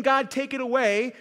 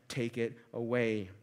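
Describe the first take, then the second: First: "God, take it away" pitched higher and louder; raised plea. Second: "Take it away" much lower and softer, falling; hushed plea. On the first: Preacher quoting a plea to God, raised. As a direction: call "God, take it away" out with some force. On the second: Preacher quoting the same plea, hushed. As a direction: breathe "Take it away" low and quiet. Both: Shown as a demonstration. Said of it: "go beyond just asking God".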